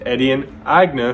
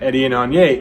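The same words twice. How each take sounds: First: The surname is pronounced with German sounds. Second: The surname is pronounced with French sounds. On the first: The surname is German. The speaker calls it right. "his proper name is Etienne Agne because his last name is German" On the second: The surname is assumed to be French. The speaker calls it wrong. "They think his last name must be French, so they pronounce it"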